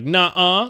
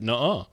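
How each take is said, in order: First: It imitates a flat text-to-speech voice. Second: It is said in a natural human way.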